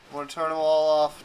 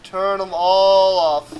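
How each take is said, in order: First: Said in the usual way. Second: "all" stretched long and louder; slow it down, leaning hard on "all"; drawn-out, loud "all"; stress on all. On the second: Real, not acted. Repeats plan with emphasis.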